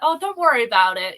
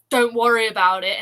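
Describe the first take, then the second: First: It sounds warm and friendly. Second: It sounds curt and passive-aggressive.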